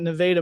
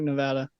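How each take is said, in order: First: Nevada is said the local Missouri way. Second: Nevada is said the way the state is. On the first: This is how the Missouri town's residents say it. "they call it Nevada" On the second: This is how the name of the state is said. "it's spelled like Nevada"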